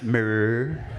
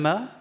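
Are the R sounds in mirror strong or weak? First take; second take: strong; weak. First: The R sounds are strong and rolled out. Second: The R sounds are soft and barely heard. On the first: The speaker calls it right. "It's pronounced mirror. Throw in as many R's as you feel like" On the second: The speaker calls it wrong. "Sorry, what? In, in, in the mirror?"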